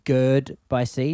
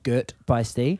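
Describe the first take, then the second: First: The first word ends with a D sound. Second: The first word ends with a T sound. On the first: The speaker calls it wrong. "it sounded like we said gird by C" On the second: The speaker calls it right. "not girt by C"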